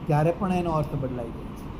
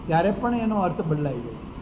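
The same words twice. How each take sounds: No difference in how they are said.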